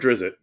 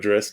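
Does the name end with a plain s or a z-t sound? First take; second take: z-t; plain s. First: The name ends with a z-t cluster. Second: The name ends with a plain s sound. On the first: It is said this way to tease others. The speaker calls it wrong. "I like saying Drizzt just to bother people" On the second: It is the accepted way to say it. The speaker calls it right. "as you know, people say properly"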